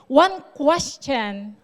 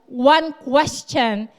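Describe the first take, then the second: No difference in how they are said.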